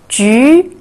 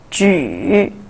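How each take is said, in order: First: The pitch rises from mid to high. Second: The pitch dips low, then rises.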